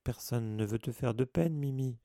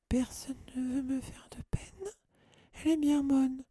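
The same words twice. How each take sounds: First: Said in the usual way. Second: Very high, tearful wail; lamenting. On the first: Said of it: "assura Hermione". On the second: A narrator's reading. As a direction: throw it back as a sobbing lament. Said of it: "se lamenta Mimi". (lamentation suraiguë et larmoyante)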